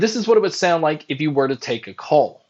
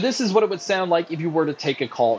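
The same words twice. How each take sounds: First: The voice is heard without background crowd noise. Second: The voice is heard over background crowd noise.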